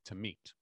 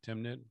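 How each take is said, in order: First: The name is pronounced differently from its spelling. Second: The name is pronounced the way it is spelled. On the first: The speaker calls it right. "it's technically Tamit" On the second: The speaker calls it wrong. "I just always say Timnit"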